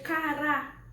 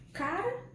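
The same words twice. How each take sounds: First: "cará" slowly as ca-RÁ; drawn-out ca-RÁ, accent on the end; stress on final syllable. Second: "Cara" stressed CA-ra; CA-ra, the unaccented word; stress on first syllable. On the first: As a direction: hit the last a of "cará" loud and long. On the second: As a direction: say "Cara" with a strong first a, weak ending. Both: Shown as a demonstration. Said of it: "se eu colocar o acento".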